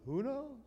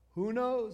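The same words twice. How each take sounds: First: It is said with a Yiddish-style, shrugging intonation. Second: It is said with plain, ordinary intonation.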